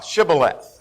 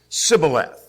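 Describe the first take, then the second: First: The word begins with a 'sh' sound. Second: The word begins with an 's' sound. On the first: This is the password the guards demanded. "say uh, Shibboleth" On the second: This betrays the speaker as an Ephraimite. "their way of pronouncing it"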